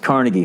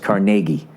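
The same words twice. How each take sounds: First: It uses the New York local pronunciation. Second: It uses the Pittsburgh local pronunciation. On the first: "when you're in New York, it's Carnegie Hall" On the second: "when you're in Pittsburgh, it's Carnegie"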